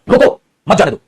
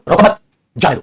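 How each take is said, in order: First: रोको on its own, मत joined to जाने दो; pause after रोको. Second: रोको मत as one phrase, break, जाने दो; pause after मत. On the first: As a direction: break straight after रोको, then मत जाने दो. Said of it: "ताकि मैं ठहराव आऊं". (रोको के बाद रुकें, फिर मत जाने दो) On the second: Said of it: "दोनों में फर्क आ गया". (रोको मत साथ में, फिर रुककर जाने दो) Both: Shown as a demonstration.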